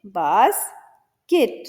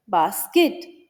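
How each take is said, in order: First: Slow "बास्केट", pause between "बास" and "केट"; split into syllables. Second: Said in the usual way. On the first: Shown as a demonstration. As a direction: stretch "बास", then add "केट" separately. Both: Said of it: "ऐसे words होते हैं जिनमें दो syllable".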